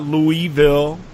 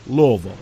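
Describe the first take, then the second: First: The first part is said fully as 'Louis'. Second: The first part is not said as 'Louis'. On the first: The speaker calls it wrong. "It's not Louisville. It's not Louis" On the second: The speaker calls it right. "It's Louisville"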